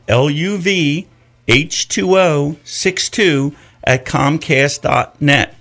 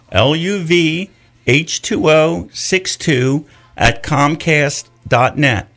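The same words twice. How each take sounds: First: Slow, careful repeat; repeated slowly. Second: Slow, letter by letter; spelled out slowly. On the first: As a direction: say it again slowly. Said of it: "That's my email address". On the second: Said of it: "my email address". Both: Shown as a demonstration.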